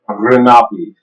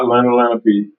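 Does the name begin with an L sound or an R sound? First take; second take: R sound; L sound. First: The name begins with an R sound. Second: The name begins with an L sound. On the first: The speaker calls it right. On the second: The speaker calls it wrong. "it's not Lenalenape"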